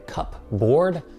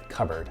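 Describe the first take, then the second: First: The word is said as two full parts. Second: The word is said blended, with a reduced ending. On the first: "hence the name cupboard" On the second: "but we pronounce it cupboard"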